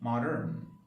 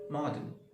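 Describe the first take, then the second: First: It is said in an American accent. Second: It is said in an Australian accent.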